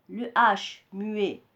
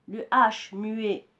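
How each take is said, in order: The two takes are said the same way.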